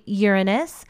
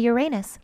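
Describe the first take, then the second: First: It is said in the formal, academic way. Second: It is said in the jokey, humorous way. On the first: This is how scholars say it. "all the professors say" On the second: This is how jokers say it. "all the funny people say"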